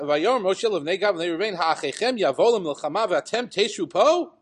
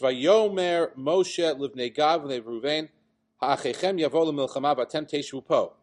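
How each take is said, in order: First: It is read as an indignant, exclaiming question. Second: It is read in a bland, flat way.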